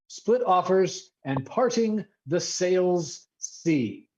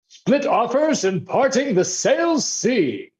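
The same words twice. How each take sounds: First: It is said in his plain voice. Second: It is said in an aristocratic accent.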